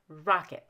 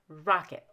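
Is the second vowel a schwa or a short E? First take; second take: schwa; schwa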